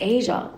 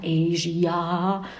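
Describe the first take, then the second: First: The word is pronounced in a plain, standard way. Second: The word is pronounced in a melodic, flowing way. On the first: It is the correct way to say it. "nein, das heißt Asia" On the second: It sounds nicer in the song. "hört sich doch viel besser an, viel melodiöser"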